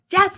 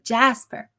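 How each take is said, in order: First: The name is said at its loudest. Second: The name is said at its softest.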